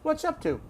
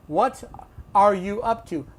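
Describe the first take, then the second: First: The words run together in a reduced form. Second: Every word is pronounced fully and separately. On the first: "this is how you're going to hear it" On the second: "No one says that"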